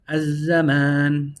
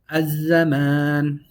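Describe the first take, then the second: No difference in how they are said.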